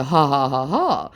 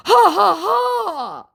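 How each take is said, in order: First: Said in the usual way. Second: High, loud, spelled-out ha-ha; mock scammer laugh. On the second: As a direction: fake the scammer's laugh loudly. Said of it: "says my sca-, uh, my scammer".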